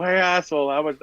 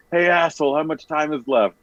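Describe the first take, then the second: First: Mock yell. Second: High, mock yell across the arena; hammed-up yell. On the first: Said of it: "you're yelling it as loud as you can". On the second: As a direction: call it out like a heckler in the stands. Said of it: "you're yelling it as loud as you can yell it".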